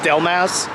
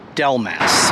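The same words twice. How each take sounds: First: The name is said quickly and run together. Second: The name is said slowly and carefully. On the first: "if you say it fast" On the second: "I had to say Del Mass slowly"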